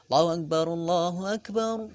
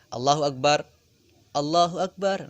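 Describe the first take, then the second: First: The two phrases run together without a pause. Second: The two phrases are separated by a pause. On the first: The speaker calls it right. "tapi disambung" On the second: The speaker calls it wrong. "Jangan dipisah"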